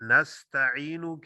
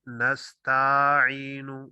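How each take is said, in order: First: The vowels are said at their normal length. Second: A vowel is stretched longer than its length. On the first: The speaker calls it right. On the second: The speaker calls it wrong.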